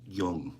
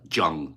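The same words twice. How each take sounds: First: The name begins with a soft 'y' sound. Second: The name begins with a hard 'j' sound. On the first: The speaker calls it right. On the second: The speaker calls it wrong. "You don't say uh"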